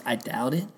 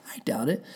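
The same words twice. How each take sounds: First: Said in the usual way. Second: "I doubt it" breathed in a voiceless whisper; whispered repeat. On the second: Real, not acted. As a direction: whisper the words "I doubt it" to yourself.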